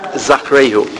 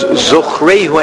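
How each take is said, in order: First: The first vowel is an A sound. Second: The first vowel is an O sound. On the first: The speaker calls it wrong. "it's not an A sound" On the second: The speaker calls it right. "it's still an O sound"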